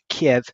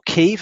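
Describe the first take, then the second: First: The city name is said the older, familiar way. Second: The city name is said the newer, television way.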